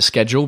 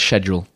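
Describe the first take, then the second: First: The word is said the American way. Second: The word is said the British way. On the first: "I still pronounce it schedule because mm-hmm. ... Maybe I was used to working at Apple with Americans" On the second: "But the British way is schedule"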